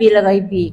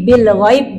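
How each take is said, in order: First: The word ends with a final i vowel. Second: The word ends on b with no final vowel. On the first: The reader carries on without stopping. The speaker calls it wrong. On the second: The reader stops at this word. The speaker calls it right. "karena kita di sini berhenti"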